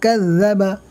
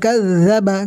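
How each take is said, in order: Both takes have the same delivery.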